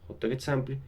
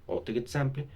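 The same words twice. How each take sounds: The two takes are said the same way.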